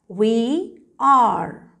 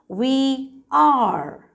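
No difference in how they are said.

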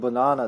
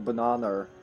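First: It ends in a plain vowel with no R. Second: It ends with an added R sound. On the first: "instead of banana" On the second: "They have the intrusive R, so they'll say"

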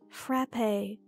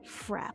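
First: It is two syllables, ending like risque. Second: It is one syllable, rhyming with crap. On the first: The speaker calls it right. "It's frappe, like risque" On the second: The speaker calls it wrong. "it's not frap, like crap"

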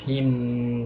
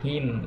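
First: The final sound is not cut off abruptly. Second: The final sound is cut off abruptly. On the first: The speaker calls it wrong. "Don't take like him, don't do that" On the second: The speaker calls it right. "So you just stop it, the sound him, like that"

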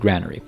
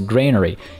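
First: The first syllable sounds like 'gran'. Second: The first syllable sounds like 'grain'. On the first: It would be a place for storing grandmas. The speaker calls it wrong. "You don't store grandmas in it, in which case it would be a granary" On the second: It is a place for storing grain. The speaker calls it right. "you store grains in it, so it's a granary"

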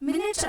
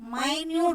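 First: The first vowel is short, like 'min'. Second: The first vowel is long, like 'my'. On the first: It refers to a unit of time. "மினிட்ஸ் அப்படிங்கிறது நம்ம என்ன சொல்லுவோம்? டைம்னு சொல்லுவோம்" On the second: It means very small. "மைன்யூட் அப்படின்னு சொல்றது very ஸ்மால்னு சொல்லுவோம்"

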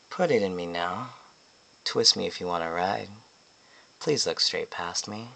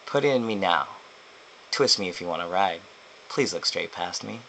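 First: It is said in a marked, unusual way. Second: It is said in a plain, ordinary way.

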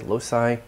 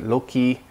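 First: It is pronounced the modern English way. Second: It is pronounced the classical Latin way. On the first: "in modern English in certain technical mathematical contexts, and what they would say loci" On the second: "in old Latin, they pronounced it loci"

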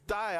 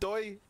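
First: The vowel sounds like 'eye'. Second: The vowel sounds like 'oy'. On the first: The speaker calls it right. "It's die" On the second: The speaker calls it wrong. "Who says doi?"

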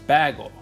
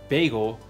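First: It uses a Canadian-style pronunciation of the word. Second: It uses the usual pronunciation of the word.

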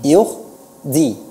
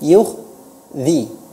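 The two takes are said the same way.

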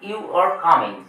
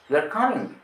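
First: It is said as a plain statement. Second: It is said as a doubtful question. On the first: You are coming, stated as a fact. "এটা শেষে ফুল stop দেওয়া আছে" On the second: There is doubt whether you are coming. "সন্দেহ প্রকাশ পাচ্ছে, ইমোশনটা প্রকাশ পাচ্ছে, টোনটাই change হয়ে যাচ্ছে"

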